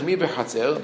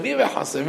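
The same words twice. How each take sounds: First: Said in the usual way. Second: מי בחצר? thrown up high in bewilderment; the king asking מי בחצר? in total confusion; confused question. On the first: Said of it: "we didn't say just, uh, randomly who's in the courtyard". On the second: Shown as a demonstration. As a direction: let מי בחצר? leap way up, baffled. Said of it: "to show the, the confusion of the king".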